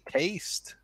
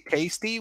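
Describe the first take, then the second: First: The final E is silent, with no extra syllable. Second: The final E is pronounced as an extra syllable. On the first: The speaker calls it right. "we say taste" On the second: The speaker calls it wrong. "we don't say tasty"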